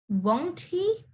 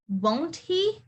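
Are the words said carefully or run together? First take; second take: careful; careful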